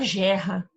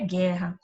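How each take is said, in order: First: The word begins with a soft zh sound. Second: The word begins with a hard g sound. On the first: The speaker calls it wrong. "vai ficar gerra" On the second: The speaker calls it right. "a palavra é guerra"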